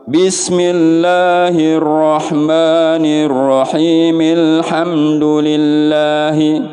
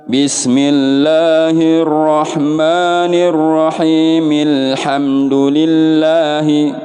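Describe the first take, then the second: The two takes are said the same way.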